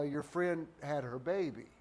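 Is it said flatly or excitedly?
flatly. It is said flatly, without excitement.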